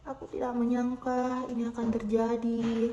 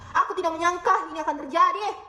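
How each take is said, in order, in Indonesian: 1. Suaranya terdengar penuh harapan dan hangat. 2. Suaranya terdengar marah dan tajam. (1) "dengan nada penuh harapan" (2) "dengan nada marah"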